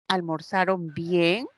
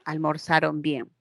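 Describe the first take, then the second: First: The pitch rises at the end. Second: The pitch falls at the end. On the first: It asks a question. "Me pueden responder sí, no" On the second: It states a fact. "yo puedo afirmar y decir"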